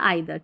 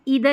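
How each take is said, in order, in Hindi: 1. पहला स्वर 'eye' जैसा सुनाई देता है। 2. पहला स्वर 'ee' जैसा सुनाई देता है। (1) "दोनों तरीके से प्रोनाउंस कर सकते हैं" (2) "दोनों तरीके से प्रोनाउंस कर सकते हैं"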